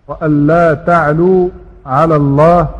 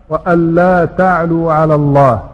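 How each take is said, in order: Both takes have the same delivery.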